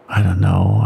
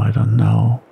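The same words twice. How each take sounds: First: Much lower, ominous mutter; low and dark, a bad omen. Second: Lower, ominous repeat; ominous mutter. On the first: Bill to Henry about the hungry wolves, muttered low. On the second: Bill repeating his doubt to Henry, muttered low. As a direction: mutter it again, low and uneasy. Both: A narrator's reading. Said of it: "Bill muttered ominously".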